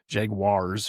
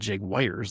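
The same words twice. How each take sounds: First: The second syllable sounds like 'wahr'. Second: The second syllable sounds like 'wire'. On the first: The speaker calls it right. "according to Google, it's Jag Jaguars ... G W A A R" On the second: The speaker calls it wrong. "It's not Jaguars, like a electrical wire"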